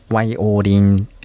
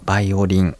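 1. その単語はWの音で始まります。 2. その単語はBの音で始まります。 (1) "タイ語の発音ではワイオリンという風になります。" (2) "弦楽器のバイオリン"

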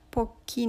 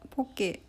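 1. 最後は長い「ee」の母音です。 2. 最後は「eh」の母音です。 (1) "アメリカ英語から来ている" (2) "ハワイ語寄りの発音、ちょっとローマ字みたいな感じ"

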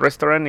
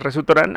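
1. No hay una vocal extra después del sonido s. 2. Hay una vocal extra después del sonido s. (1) "tendría que sonar restaurant igual" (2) "como lo pronunciaría un japonés"

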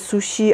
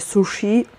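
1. Spółgłoska 'sh' jest miękka i palatalna. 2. Spółgłoska 'sh' jest twarda, nie palatalna. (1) "w Japonii mówi się miękko shiji, czyli mamy sushi" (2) "a nie sushi"

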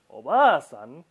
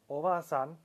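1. La vocal después de 'b' se estira: es larga. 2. La vocal después de 'b' es corta. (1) "con la estiración" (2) "sin estiración"

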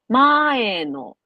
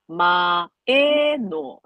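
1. 単語全体で、音の高さがだんだん下がります。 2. 低く、高く、また低くなります。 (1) "順調に下がっていってるじゃないですか" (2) "関西弁は前のだからえが高いだけで低い高い低いなんですよね"

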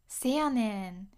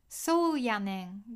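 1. このフレーズは短い'se'の音で始まります。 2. このフレーズは長い'sou'の音で始まります。

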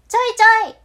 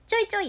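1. 声は広くて、大きくて、よく響いています。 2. 声は細くて、一点をねらっています。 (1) "部屋全体に行き渡らせる声で発してみてください。ちょいちょい、すごい響いたな" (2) "その小さなものめがけてビューンって飛んでいく矢印のイメージですね。ちょいちょいって、こんな感じで"

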